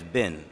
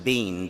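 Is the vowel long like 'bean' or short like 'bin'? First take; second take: short; long. First: The vowel is short, like 'bin'. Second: The vowel is long, like 'bean'. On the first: "it's just B I N, so it's bin" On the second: "instead of saying bean"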